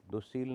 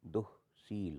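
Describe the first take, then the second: First: दुश्शील with no breath after दु; wrong visarga-less form. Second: दुःशील with a breathy h after दु; sounded visarga. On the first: Teacher shows students the error, दुश्शील without visarga. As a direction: run दुश्शील together without an h. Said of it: "नहीं होता". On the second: Teacher corrects students, दुःशील with sounded visarga. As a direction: split दुःशील as duh, sheel. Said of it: "होता है". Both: Shown as a demonstration.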